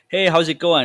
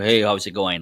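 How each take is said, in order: First: The greeting sounds warm and friendly. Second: The greeting sounds cold and unfriendly. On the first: The speaker invites conversation. The speaker calls it right. "a lot more friendlier, more inviting" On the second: The speaker does not want to talk. The speaker calls it wrong. "that's not a very friendly or attitude"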